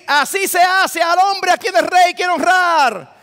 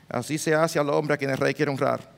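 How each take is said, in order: First: It is proclaimed loudly and with full energy. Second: It is said half-heartedly, without energy. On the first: He was obliged to announce it properly. The speaker calls it right. "Tenía que ir" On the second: He would rather not be saying it. The speaker calls it wrong. "Él no podía ir como quizás quisiera"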